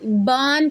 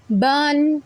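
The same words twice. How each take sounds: First: बान with the vowel drawn out long; wrong stretched बान. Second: बन said short, vowel not stretched; short correct बन. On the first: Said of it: "बान करके ना पढ़ दें". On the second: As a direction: keep बन clipped and short. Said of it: "ऐसा ना हो कि हम उसको लंबा कर दें". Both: Shown as a demonstration.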